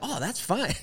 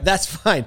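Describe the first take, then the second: First: It sounds light and friendly. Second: It sounds curt and annoyed.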